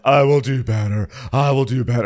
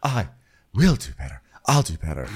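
First: Loud, high mock pledge; Marlo. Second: Understated mock promise, with pauses; Sheree. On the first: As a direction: promise it with hammed-up fervour. Mimics Marlo's overwrought promise. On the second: Mimics Sheree's restrained version of it.

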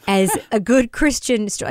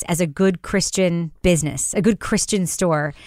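First: Sarcastic quote with a laugh; mocking. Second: Said in the usual way. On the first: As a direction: laugh at the phrase as you quote it. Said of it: "like, what does that mean?". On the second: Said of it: "when you describe a business".

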